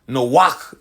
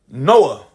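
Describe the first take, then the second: First: The name ends in a throaty ch sound. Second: The name ends in an open vowel sound. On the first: This is the Hebrew form of the name. "Noach in the Hebrew" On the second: This is the Latinized form of the name. "that's the Latinized form of saying Noah"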